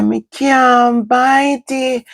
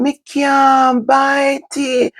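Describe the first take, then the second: First: Put-on high, slow child's whine; whiny child. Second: High, very slow whining cry; whiny child. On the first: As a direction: stretch it out, pleading like a little girl. Child whining she can't bite. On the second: Retold or imitated. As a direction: wail it out like a little girl. Child crying out she can't bite.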